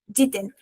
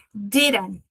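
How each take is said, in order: First: "Ditten" with a crisp, fully sounded middle D; lower-pitched British "Ditten", the D kept distinct; British pronunciation. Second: "Didn't" with a tapped R-like middle D; American pronunciation. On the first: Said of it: "Na pronúncia britânica". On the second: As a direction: say "Didn't" American-style, the D flicked into a tap. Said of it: "Na pronúncia americana". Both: Shown as a demonstration.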